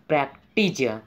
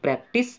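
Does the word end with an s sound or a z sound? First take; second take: z; s. First: The word ends with a z sound. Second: The word ends with an s sound. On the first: "नीचे वाले में S है, तो इसका उच्चारण करेंगे हम लोग प्रैक्टिज" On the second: "ऊपर वाले में आप लोग का सी है, इसका उच्चारण करेंगे हम लोग प्रैक्टिस"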